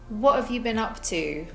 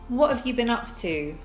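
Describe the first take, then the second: First: The words run together with reduced forms. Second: The same.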